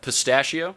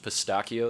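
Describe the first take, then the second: First: The word is said with an English pronunciation. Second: The word is said with an Italian pronunciation.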